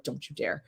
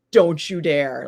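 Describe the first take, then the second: First: Low-key, hushed retold threat; quiet warning. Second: Retold threat at full voice; firm warning. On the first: Staring down a rival over the leashes, quiet warning. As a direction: warn him softly, under control. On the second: Staring down the rival with the golden brick, firm warning. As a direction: warn him off firmly and openly. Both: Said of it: "I literally stared him down".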